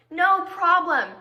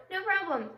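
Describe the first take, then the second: First: Loud, drawn-out "no problem"; slow, loud mock agreement; exasperated repeat. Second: Said in the usual way. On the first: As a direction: stretch it out with heavy irony.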